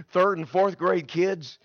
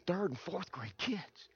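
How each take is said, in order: First: Said in the usual way. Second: Very soft, slow question; hushed, rising, taken aback; dismayed echo. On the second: Retold or imitated. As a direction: echo it back in quiet disbelief. His shy, dismayed answer.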